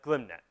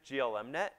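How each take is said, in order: First: The first part is said as one syllable. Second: The first part is said as separate letters. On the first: The speaker calls it right. "he told me it was pronounced GlimNet" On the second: The speaker calls it wrong. "You might have pronounced it GLMNet"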